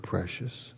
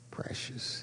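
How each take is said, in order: First: Soft, lingering precious with a lift; savoring the word. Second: Precious breathed in a whisper. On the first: Preacher savoring the word precious, soft and lingering. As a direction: let precious linger softly. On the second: Pastor whispering the word to his congregation. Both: Shown as a demonstration. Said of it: "I love that word".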